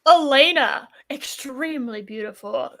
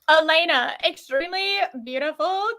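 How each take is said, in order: First: It is read in the speaker's ordinary voice. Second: It is read in a put-on Valley Girl voice.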